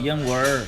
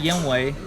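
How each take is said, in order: First: The word ends with an added R sound. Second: The word ends without an added R sound. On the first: "we can throw some R's in" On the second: "You say yenwei"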